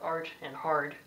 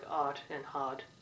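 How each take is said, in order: First: The R is clearly pronounced, American style. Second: The R is dropped, British style.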